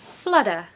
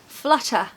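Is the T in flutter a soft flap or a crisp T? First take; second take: soft flap; crisp T. First: The T is softened into a quick flap. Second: The T is pronounced as a crisp, strong T. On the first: "In the American accent, they say more like flutter" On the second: "in the British accent... we're going to really make a strong T"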